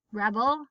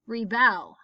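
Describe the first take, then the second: First: Rebel as REB-ul; short "reh" stressed in Rebel; stress on first syllable. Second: Rebel as ree-BELL, falling; stress on second syllable. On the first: Teacher reading word list aloud, stress on first syllable. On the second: Teacher reading word list aloud, stress on second syllable. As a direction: punch the bel in rebel. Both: Shown as a demonstration. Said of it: "both of the different pronunciations".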